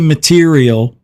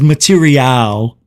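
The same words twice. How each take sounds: First: It is pronounced in the usual, everyday way. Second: It is pronounced in a fancy, affected way. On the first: This is how most people say it. "he won't say material" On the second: The speaker is being pretentious. "He says material"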